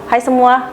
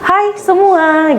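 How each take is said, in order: First: The greeting is said flat, without intonation. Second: The greeting has lively, varied intonation. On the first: The speaker calls it wrong. "nggak enak kan?" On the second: The speaker calls it right. "intonasi kayak"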